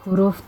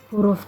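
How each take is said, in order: The two takes are said the same way.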